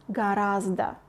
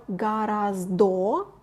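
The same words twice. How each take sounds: First: Natural Russian гораздо; correct pronunciation. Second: Гораздо with a full final O, as spelled; гораздо read letter by letter; spelling pronunciation. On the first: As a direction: say гораздо ending in a weak schwa, not "o". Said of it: "but pronounce гораздо". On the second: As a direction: say гораздо ending in a clear "o". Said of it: "Notice that we spell гораздо". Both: Shown as a demonstration.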